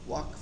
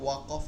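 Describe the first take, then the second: First: It is said as one syllable ending in 'kf'. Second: It is split into two syllables with an added vowel. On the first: The speaker calls it right. "ওয়াকফ এটাই বলতে হবে" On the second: The speaker calls it wrong. "ওটা ওয়াক অফ হবে না"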